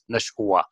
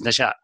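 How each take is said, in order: First: The word is said with a w sound. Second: The word is said without a w sound. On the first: The speaker calls it wrong. "If you pronounce it like that, it doesn't make any sense" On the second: The speaker calls it right. "It is Nasha"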